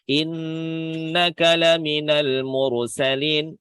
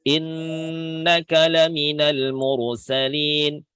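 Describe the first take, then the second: The two takes are said the same way.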